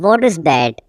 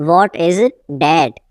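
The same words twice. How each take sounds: First: Said in the usual way. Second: Teacher setting "that" apart, falling; broken-up repeat. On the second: Shown as a demonstration. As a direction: pause before "that".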